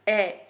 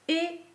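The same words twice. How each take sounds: First: The vowel is open, with the mouth wider. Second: The vowel is closed, with the mouth narrower. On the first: "one open" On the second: "and one closed"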